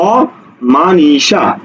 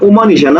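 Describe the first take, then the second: First: The first vowel sounds like 'aw'. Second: The first vowel sounds like 'oo'. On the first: The speaker calls it right. "শব্দটা হলো অমানিসা অর্থাৎ এটা অ অই থাকবে" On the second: The speaker calls it wrong. "আমরা এভাবে বলি না উমানিসা"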